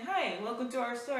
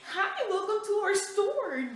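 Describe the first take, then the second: First: It is said in a plain, moderately friendly way. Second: It is said with exaggerated, over-the-top enthusiasm. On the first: The greeter is being simply polite. The speaker calls it right. "I'm just saying" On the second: The greeter is trying far too hard. The speaker calls it wrong. "go over the top like"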